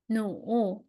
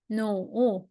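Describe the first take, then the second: No difference in how they are said.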